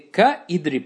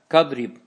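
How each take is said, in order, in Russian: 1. Начальное i в idrib произносится отдельно. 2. Начальное i опускается, и получается kadrib. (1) "Не ка-идриб" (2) "а как кадриб"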